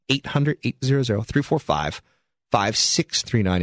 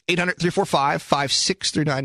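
First: The number is said slowly. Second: The number is said at normal quick pace.

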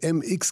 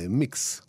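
First: It is spoken as two separate letter names. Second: It is spoken as one word, like mix. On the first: The speaker calls it wrong. "אני מבטא את זה MX כדי שתבינו" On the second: The speaker calls it right. "הביטוי הנכון הוא מיקס"

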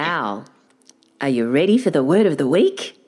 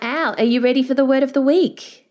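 First: It is said with big, dramatic energy. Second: It is said plainly, without dramatic energy. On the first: The speaker calls it right. "I'll try it again" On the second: The speaker calls it wrong. "you didn't give me the big dramatic opening"

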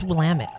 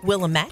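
First: The ending sounds like 'damn it'. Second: The ending does not sound like 'damn it'. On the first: The speaker calls it right. "But it's Willamette. Rhymes with damn it" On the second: The speaker calls it wrong. "you might want to say Willamette"

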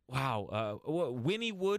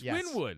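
First: The name is said with three syllables. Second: The name is said with two syllables. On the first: This is how the Oklahoma town is named. "It looks like Wynwood, PA, but it's Winnie" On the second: This is how the Pennsylvania place is named. "these morons are mispronouncing it. It's Wynwood"

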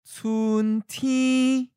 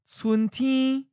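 First: It is said slowly and carefully. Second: It is said at a natural speed. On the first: "and then slowly" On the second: "First natural speed"

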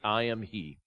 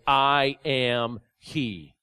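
First: It is said matter-of-factly at normal volume. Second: It is said with a raised voice.

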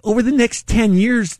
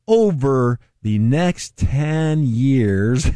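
First: It is said at normal speed. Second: It is said very slowly.

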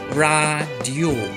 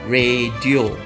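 First: The word uses standard Malay baku pronunciation. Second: The word uses a common everyday pronunciation. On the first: The speaker calls it right. "根据sebutan baku，在这里我们应该念成radio" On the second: The speaker calls it wrong. "一般我们都会念成radio"

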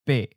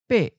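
First: The syllable is mid-pitched and cut off abruptly. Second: The syllable is high and cut off abruptly. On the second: "high stop"

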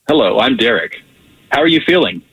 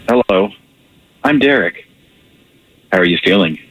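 First: It is said in a plain, neutral tone. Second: It is said with caring, sexy warmth.

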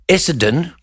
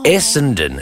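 First: The middle N sound is dropped. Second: The middle N sound is clearly pronounced. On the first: The speaker calls it wrong. "Essendon is not a place. It doesn't exist" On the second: The speaker calls it right. "put the N in Essendon"

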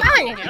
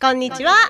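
First: It is said in a Pikachu voice. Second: It is said in her own natural voice.

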